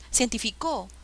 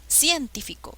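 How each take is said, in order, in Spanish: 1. La fuerza está en la cuarta sílaba. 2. La fuerza está en la primera sílaba.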